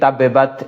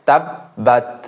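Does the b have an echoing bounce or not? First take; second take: bounce; no bounce. First: The b is released with an echoing bounce. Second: The b is held without any echoing bounce. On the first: The speaker calls it wrong. "এখানে অনেকে কলকলা করে ফেলি, তাব্বাত এভাবে বলে ফেলি" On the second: The speaker calls it right. "তাসদীদ থাকলে এখানে কলকলা হবে না"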